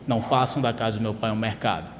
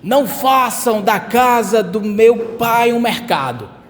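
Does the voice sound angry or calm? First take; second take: calm; angry. First: It is read calmly, without anger. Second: It is read angrily, as a rebuke.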